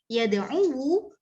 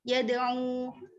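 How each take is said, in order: First: The final waw carries a full u vowel. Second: The final waw is cut short without a vowel. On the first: It feels heavy on the tongue. The speaker calls it wrong. "itu terasa berat di lisan" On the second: It feels light on the tongue. The speaker calls it right.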